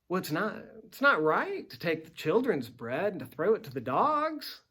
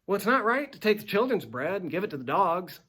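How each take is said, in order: First: It sounds teasing, as if inviting a reply. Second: It sounds flat, blunt and final.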